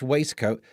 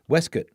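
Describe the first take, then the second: First: The word is said in an ordinary accent. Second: The word is said in a posh accent.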